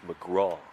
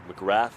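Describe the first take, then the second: First: The name is said the Australian way. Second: The name is said the American way. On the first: "But here in Australia, it's McGraw" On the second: "That's how we pronounce it"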